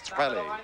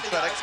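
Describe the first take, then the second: First: The name ends without any x sound. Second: The name ends with a spoken x sound. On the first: The speaker calls it right. "the correct pronunciation is Trelle" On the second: The speaker calls it wrong. "We're calling him Trellex"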